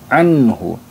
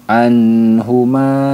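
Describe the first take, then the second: First: The n sound is clear and kept short. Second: The n sound is held for too long. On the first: The speaker calls it right. "harus dibaca jelas, tidak boleh ditahan" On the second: The speaker calls it wrong. "Kesalahan yang sering terjadi itu kita terlalu lama menahan bunyi nun sukunnya... itu kurang tepat"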